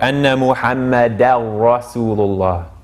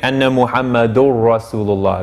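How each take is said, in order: First: The vowel after the r sounds light. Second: The vowel after the r sounds heavy. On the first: The speaker calls it right. "making sure that this ra doesn't make this a heavy" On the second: The speaker calls it wrong. "They might think that's correct, but it's not"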